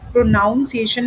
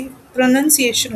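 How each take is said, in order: First: "प्रोनाउंसिएशन" with noun in the middle; wrong ow vowel in the second syllable of "प्रोनाउंसिएशन"; mispronunciation demo. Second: "प्रोनंसिएशन" with a short nun in the middle; "प्रोनंसिएशन" with nun, not noun; correct pronunciation. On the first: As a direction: say "प्रोनाउंसिएशन" as pro-NOUN-see-ay-shun. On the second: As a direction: say "प्रोनंसिएशन" as pro-nun-see-AY-shun. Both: Shown as a demonstration. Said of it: "प्रोनाउंसिएशन नहीं होता है".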